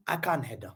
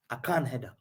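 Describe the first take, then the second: No difference in how they are said.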